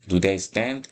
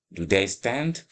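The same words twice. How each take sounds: The two takes are said the same way.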